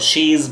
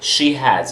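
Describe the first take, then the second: First: The two words are merged into one syllable. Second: Both words are said in full. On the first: "और she's भी पढ़ते"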